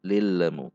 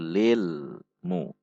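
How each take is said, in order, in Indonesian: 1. L memantul dengan vokal kecil. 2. L ditahan stabil tanpa memantul. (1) "Itu memantul" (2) "sifatnya bainiyah, yaitu lilmu"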